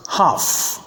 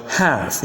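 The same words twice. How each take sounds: First: "half" as "hahf", long back vowel; British pronunciation. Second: "half" with the vowel of cat; American pronunciation. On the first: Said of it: "in British English". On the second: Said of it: "in American English". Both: Shown as a demonstration.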